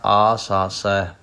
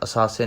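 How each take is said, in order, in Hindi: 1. शब्द एक लंबे स्वर से शुरू होता है। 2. शब्द एक छोटे स्वर से शुरू होता है।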